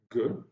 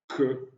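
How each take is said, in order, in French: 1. La première consonne est un son k dur. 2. La première consonne est un son k dur.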